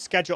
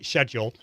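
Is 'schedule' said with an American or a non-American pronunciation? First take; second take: American; non-American. First: It is said with an American pronunciation. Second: It is said with a non-American pronunciation. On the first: "I'm pronouncing it the correct American way" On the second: "not as I say"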